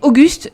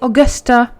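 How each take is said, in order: First: The name ends on the t, no final vowel. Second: The name ends with an added 'a' vowel. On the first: "Ça se dit Auguste" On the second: "en anglais c'est Augusta"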